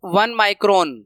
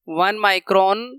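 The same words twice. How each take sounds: First: Said in the usual way. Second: "वन micron" repeated slowly, rising on "micron"; teacher repeats "वन micron" slowly with a rise. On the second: Shown as a demonstration. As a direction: drag out "वन micron" slowly so the class notes it.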